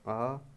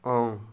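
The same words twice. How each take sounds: First: The vowel is oral, without nasal airflow. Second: The vowel is nasalized, with air through the nose. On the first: "जिन स्वरों के उच्चारण में हवा केवल मुंह से निकलती हो" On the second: "मुंह के साथ साथ नाक से भी निकले"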